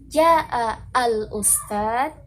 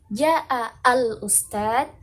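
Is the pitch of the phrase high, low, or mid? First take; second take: high; high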